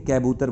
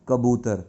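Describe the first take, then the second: First: The first syllable has an 'ai' vowel. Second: The first syllable has a short 'a' vowel. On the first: The speaker calls it wrong. "कै से कैबूतर बनता है" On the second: The speaker calls it right. "कैबूतर नहीं होता तो क्या होता है?"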